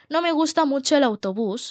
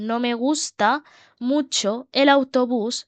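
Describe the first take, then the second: First: Said in the usual way. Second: Slow, broken into short chunks with pauses; slow dictation. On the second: Shown as a demonstration. Teacher repeats the model sentence for learners, slow dictation. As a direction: pause after "gusta", then draw out "mucho el autobús".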